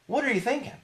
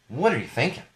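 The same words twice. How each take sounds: First: Much higher, disbelieving question; incredulous. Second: Said in the usual way. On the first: Real, not acted. Host asking Snapchat again, much higher in disbelief. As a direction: shoot the pitch way up in disbelief.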